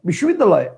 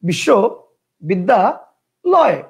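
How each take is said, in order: First: The word is said in one unbroken chunk. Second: The word is broken into three separate chunks. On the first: "একবারে ... একটা।" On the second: "কয়টা হইলো? তিনটা।"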